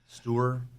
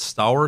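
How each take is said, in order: First: The name sounds like Stewart. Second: The name sounds like Stour.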